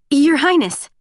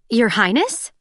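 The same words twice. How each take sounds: First: Startled, higher and louder exclamation; blurted rush. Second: Highness rising into a question; questioning call. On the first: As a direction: blurt it out on reflex. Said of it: "The words were a rush". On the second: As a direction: ask Your Highness with a lift. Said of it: "interrupted a youngish woman". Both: A narrator's reading.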